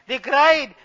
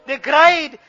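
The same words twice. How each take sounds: The two takes are said the same way.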